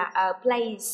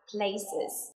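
First: "place" as one syllable, ending in a plain s; plural indistinguishable from singular. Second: "places" in two syllables, ending in -iz; extra-syllable plural. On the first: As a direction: add no extra syllable to "place". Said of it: "không có cái sự khác biệt". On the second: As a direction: slowly sound out the -es on "places". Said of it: "trường hợp thứ ba là places". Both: Shown as a demonstration.

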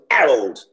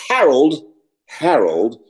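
First: "Harold" said as "Arold", no H; dropped H. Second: "Harold" with the H clearly breathed; H sounded. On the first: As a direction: start "Harold" straight on the vowel, Cockney style. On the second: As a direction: say "Harold" starting on a full H. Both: Shown as a demonstration. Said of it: "there's no H there".

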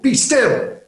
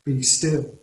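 First: Much higher and louder, a sharp order; stern command. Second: Gentle, unhurried invitation to rest; soft reminder to pause; quiet encouragement. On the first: Preacher voicing God's command to the panicking, forceful. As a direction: bark it as a command to stop. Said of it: "it is a command". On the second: Preacher quoting the psalm as gentle comfort, softly. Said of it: "We often quote these words in quiet tones". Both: Shown as a demonstration.

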